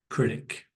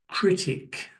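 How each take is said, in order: First: It is said more quickly. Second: It is said slowly.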